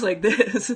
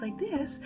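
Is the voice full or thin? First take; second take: full; thin. First: The voice sounds big and full. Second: The voice sounds thin and light. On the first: This is the voice she newly found. "she still has her big full voice" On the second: This is the voice she had always used. "a woman who speaks like this"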